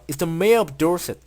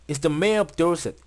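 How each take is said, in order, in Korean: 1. 모든 단어가 하나의 단어처럼 붙어서 이어집니다. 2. 모든 단어가 하나의 단어처럼 붙어서 이어집니다.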